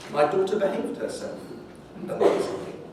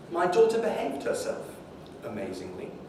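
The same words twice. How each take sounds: No difference in how they are said.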